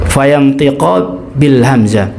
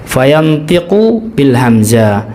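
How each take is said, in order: Both takes have the same delivery.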